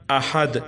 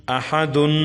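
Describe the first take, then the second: First: احد stopped on a vowelless d; pausal form. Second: احدن ending in a sounded "-un"; full form with tanween. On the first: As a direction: end احد on the bare d, no "-un". (احد کے آخری دال کو ساکن پڑھیں) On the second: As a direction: sound the final nun of احدن. (احدن کو تنوین کے ساتھ پورا پڑھیں) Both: Shown as a demonstration. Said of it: "وقفن".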